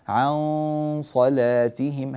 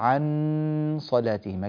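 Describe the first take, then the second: First: The n is hidden into a light nasal sound. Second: The n is pronounced clearly and held long. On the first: The speaker calls it right. "الصفة الصحيحة للإخفاء" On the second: The speaker calls it wrong. "أنت تأتي بنون مظهرة طويلة"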